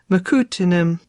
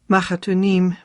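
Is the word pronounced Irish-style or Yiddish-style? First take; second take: Irish-style; Yiddish-style. First: It is pronounced like an Irish surname. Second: It is pronounced the Yiddish way. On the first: The speaker calls it wrong. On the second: The speaker calls it right.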